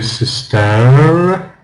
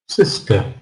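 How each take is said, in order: First: The last syllable ends in a full vowel. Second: The last syllable ends in a weak schwa. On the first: The speaker calls it wrong. "We don't say sister" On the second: The speaker calls it right. "at the end of sister is just a schwa sound"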